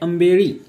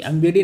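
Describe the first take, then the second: First: The last consonant is a retroflex l sound. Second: The last consonant is a flapped d sound. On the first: The speaker calls it right. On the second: The speaker calls it wrong. "आंबेडी नाही"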